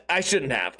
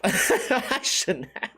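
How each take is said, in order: First: Said in the usual way. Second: Slow, laughing through the words. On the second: Real, not acted. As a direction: chuckle while admitting it. Repeat laughing at himself.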